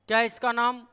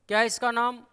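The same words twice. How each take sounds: The two takes are said the same way.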